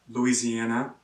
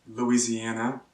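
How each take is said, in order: No difference in how they are said.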